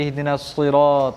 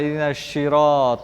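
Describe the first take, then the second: First: The second word begins with an s sound. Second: The second word begins with an sh sound. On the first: It means the straight path. The speaker calls it right. "मैंने तुम्हारे लिए इहदिना सिरात, सीधा रास्ता बोला" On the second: It sounds like a word for sweet syrup. The speaker calls it wrong. "आप बोला इहदिना शिरात, तो कहाँ शीरा खाने जा रहे हो?"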